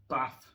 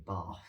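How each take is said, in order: First: Bath with a short flat a, like bat; northern Bath. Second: Bath with a long open ah, like Barth; southern Bath. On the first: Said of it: "Like, for example, I say Bath". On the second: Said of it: "with a very wide R to it". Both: Shown as a demonstration.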